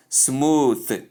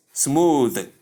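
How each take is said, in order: First: "smooth" with a detached voiceless th; wrong pronunciation. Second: "smooth" very slowly with a voiced th; correct pronunciation. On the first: Teacher contrasting the wrong form, "smooth" with voiceless th. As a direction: say "smooth" as smoo-th, ending like "tooth". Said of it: "not smooth". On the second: Teacher insisting on the right form, "smooth" drawn out with voiced th. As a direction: stretch "smooth" and buzz the final th. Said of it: "It is smooth". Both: Shown as a demonstration.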